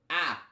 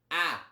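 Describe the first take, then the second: Both takes have the same delivery.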